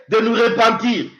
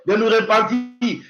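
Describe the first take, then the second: No difference in how they are said.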